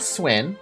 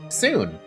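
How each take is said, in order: First: The name has a w glide and short i. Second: The name has a plain long oo vowel. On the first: The speaker calls it wrong. "not Swin" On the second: The speaker calls it right. "that's not how you say it, dude. It's Soon family"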